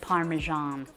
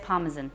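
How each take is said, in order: First: It is said in an American accent. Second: It is said in a non-American accent.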